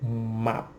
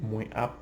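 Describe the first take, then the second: First: The pronoun is reduced and joined to the next word. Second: The pronoun is a full separate syllable. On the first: "we most of the time say map" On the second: "instead of saying moi up all the time"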